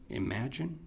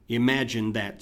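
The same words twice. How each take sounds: First: "Imagine?" soft with a rising, incredulous tune; "Imagine?" softer, lifted at the end like a doubting question; questioning rise. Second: "Imagine" leaned on, louder, statement tune; "Imagine that" said as a firm rebuke; stress on imagine. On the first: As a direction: ask "Imagine?" quietly in disbelief. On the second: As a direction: hit "Imagine" hard then let "that" fall. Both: Shown as a demonstration.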